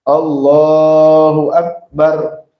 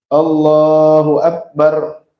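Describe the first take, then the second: No difference in how they are said.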